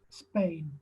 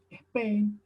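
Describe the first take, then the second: First: It starts directly with the s p cluster. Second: An extra e vowel comes before the s. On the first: "no decimos Spain" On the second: "Le ponemos una E adelante"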